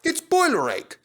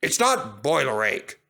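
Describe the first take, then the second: First: Much higher, boiler stressed, falling; Duck's diagnosis. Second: Not stressed and falling; protesting Gordon. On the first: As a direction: diagnose it brightly like a know-it-all. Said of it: "put in Duck". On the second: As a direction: deny it flatly, hitting not. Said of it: "protested Gordon". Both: A narrator's reading.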